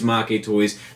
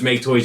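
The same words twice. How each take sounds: First: Make is said as a Japanese word. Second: Make is said like the English word make. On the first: The speaker calls it right. "the correct pronunciation is" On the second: The speaker calls it wrong. "just because it's what I've always used"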